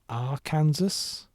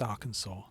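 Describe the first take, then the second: First: The ending sounds like the word Kansas. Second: The ending sounds like saw, without s. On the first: The speaker calls it wrong. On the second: The speaker calls it right.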